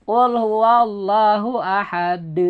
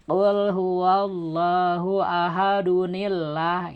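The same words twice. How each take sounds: First: Slow chant with a bounced final d on ahad; slow Quran recitation with qalqalah; stop with qalqalah. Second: Slow chant joining ahadunillah; slow recitation read through; connected, no qalqalah. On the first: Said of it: "timbul qalqalahnya ketika diwakop". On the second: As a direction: run ahadunillah on with no bounce. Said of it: "tidak ada qalqalahnya". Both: Shown as a demonstration.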